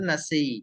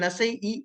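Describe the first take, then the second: First: The final vowel is stretched into one long sound. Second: The final vowel is added as a separate sound. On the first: The speaker calls it right. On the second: The speaker calls it wrong.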